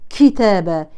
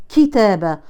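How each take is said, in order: Both takes have the same delivery.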